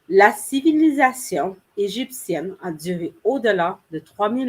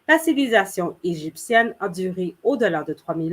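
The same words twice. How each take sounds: First: It is spoken slowly with clearly separated words. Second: It is spoken quickly with words run together. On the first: It is said carefully so learners can follow. "I said that sentence a lot more slower" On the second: It is said the way a native speaker normally would. "my tempo was a lot quicker. I didn't articulate as much"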